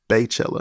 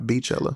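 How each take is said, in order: First: The first syllable sounds like 'bay'. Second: The first syllable sounds like 'bee'. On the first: The speaker calls it wrong. "saying Baychella and not Beachella" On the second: The speaker calls it right. "and not Beachella"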